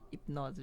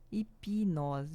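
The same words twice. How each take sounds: First: The p goes straight into the n, no vowel. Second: A short i vowel is inserted after the p. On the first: The speaker calls it wrong. "Ninguém fala hipnose" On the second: The speaker calls it right. "Apesar de não ter um izinho, a gente fala hip"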